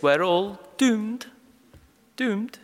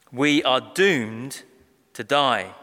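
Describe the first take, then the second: First: Slow, high, drawn-out Scottish wail of doom; Private Fraser Scottish accent. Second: Said in the usual way. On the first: Retold or imitated. Preacher quoting the Dad's Army catchphrase, hammed-up Scottish doom. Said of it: "Manoah responds like Private James Fraser". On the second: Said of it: "He didn't say it in a Scottish accent".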